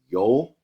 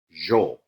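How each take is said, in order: First: It is said in a general Spanish way. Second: It is said in an Argentine-Uruguayan way. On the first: "Rather than saying yo for I" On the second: "they say yo"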